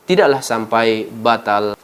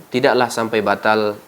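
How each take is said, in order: No difference in how they are said.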